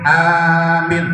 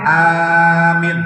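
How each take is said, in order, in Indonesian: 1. Vokal pertama panjang, yang kedua pendek. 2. Vokal pertama panjang, yang kedua pendek.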